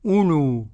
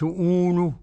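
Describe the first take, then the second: First: أولو with a short opening u; silent first waw. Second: أولو with an overlong opening uu; wrongly long first vowel. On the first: Sheikh asks and answers for students, short u in أولو. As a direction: say أولو as ulu, first vowel not stretched. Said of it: "هذه الواو زائدة". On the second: Sheikh shows what is a mistake, stretched uu in أولو. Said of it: "إذا قرأت أولو خطأ". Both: Shown as a demonstration.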